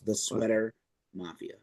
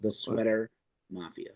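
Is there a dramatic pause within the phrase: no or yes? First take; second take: yes; yes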